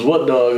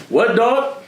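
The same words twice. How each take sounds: First: Said in the usual way. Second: High, punchy "What, dog?" with a rising end; Edwin's catchphrase. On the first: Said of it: "You know that famous". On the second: Retold or imitated. Imitating Edwin's trademark challenge before he swings. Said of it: "You know that famous "What, dog?".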